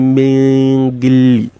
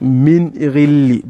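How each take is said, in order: First: The noon sound is hidden in the next sound. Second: The noon sound is pronounced clearly and distinctly. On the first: The speaker calls it wrong. "You won't say min ghilli, it's wrong" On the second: The speaker calls it right. "that noon has to go with the law of al-idhar"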